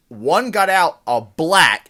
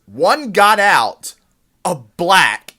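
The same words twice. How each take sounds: First: Loud yelled quote; louder yelled repeat of the line; mock yell. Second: Slow loud drawn out yell; slow deliberate shouted alarm; mock yell. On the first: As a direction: call it out like a raised alarm. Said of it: "points and yells". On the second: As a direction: bellow it at the fleeing woman. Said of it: "yells some words that are just crazy".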